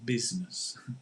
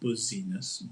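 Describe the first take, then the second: First: The first syllable sounds like 'biz'. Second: The first syllable sounds like 'buzz'. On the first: The speaker calls it right. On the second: The speaker calls it wrong.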